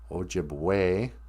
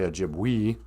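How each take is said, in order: First: The final vowel sounds like 'ay'. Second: The final vowel does not sound like 'ay'. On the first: The speaker calls it right. "E's are pronounced A" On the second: The speaker calls it wrong. "We don't say Ojibwe"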